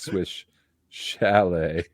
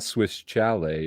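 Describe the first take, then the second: First: Chalet begins with an sh sound. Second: Chalet begins with a ch sound. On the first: The speaker calls it right. "it's Swiss chalet" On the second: The speaker calls it wrong. "it's not Swiss chalet"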